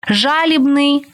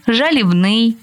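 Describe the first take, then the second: First: ЖАлібний, stressed on the first syllable. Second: ЖалібНИЙ, stress moved off ЖА toward the end; stress on later syllable. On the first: Teacher showing variant stresses to student, first-syllable stress on жалібний. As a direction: punch ЖА in жалібний. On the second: Teacher showing variant stresses to student, later stress on жалібний. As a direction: shift the weight off ЖА in жалібний to the end. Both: Shown as a demonstration. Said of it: "Такий наголос ще називають варіантним".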